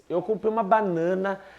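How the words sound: The voice trails off, suspended, at the end. Something more is still to come. "Agora, a reticências"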